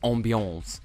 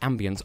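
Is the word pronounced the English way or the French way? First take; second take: French; English. First: The word has a French-style pronunciation. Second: The word has an English pronunciation. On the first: The speaker calls it wrong. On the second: The speaker calls it right.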